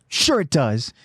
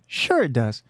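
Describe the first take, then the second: First: It is said in an aggressive tone. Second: It is said in a mild, non-aggressive tone.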